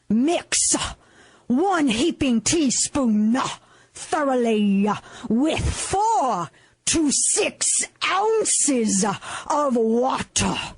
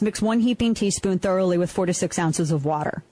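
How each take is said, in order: First: Every word is dropped heavily, like a preacher. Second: It is read in a plain, boring way.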